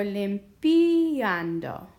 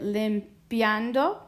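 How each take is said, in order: First: "limpiando" split as lim-PEE-an-do, with a long, loud PEE; IA as two syllables. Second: "limpiando" with "pia" run together as one glide; IA as one sound. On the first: Teacher testing which sounds best, "limpiando" broken into lim-PEE-an-do. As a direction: break "limpiando" at a drawn-out, stressed "pi" before "ando". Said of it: "two syllables here". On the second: Teacher sounding out a word for students, "limpiando" with IA as one syllable. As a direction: say "limpiando" in three beats, lim-pyan-do. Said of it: "one sound". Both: Shown as a demonstration.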